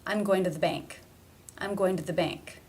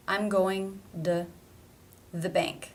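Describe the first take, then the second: First: TO reduced to a quick "duh"; reduced voiced T. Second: Slow, with TO set apart as "duh"; slow it right down and pause after a voiced TO; broken-down demonstration. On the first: Teacher showing a reduced word, TO voiced as "duh". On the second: Teacher breaking down the sentence, TO isolated as "duh". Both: Shown as a demonstration. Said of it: "actually having a voiced sound there".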